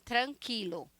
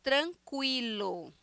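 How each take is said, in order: First: No w sound follows the k sound. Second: A w sound follows the k sound. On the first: This is the Spanish pronunciation. "Em espanhol não se pronuncia é, quilo, quilo, é qui" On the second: This is the Portuguese pronunciation. "Em português"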